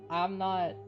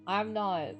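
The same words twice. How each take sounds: The two takes are said the same way.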